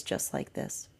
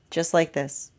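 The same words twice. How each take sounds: First: Soft whispered answer. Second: Said in the usual way. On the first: Retold or imitated. Higher self answers the energy in a whisper. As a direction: breathe it as a whisper. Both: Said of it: "And the higher self says".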